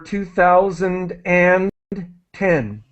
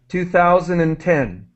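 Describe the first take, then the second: First: The phrase is said at a slow, careful pace. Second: The phrase is said quickly, with words run together.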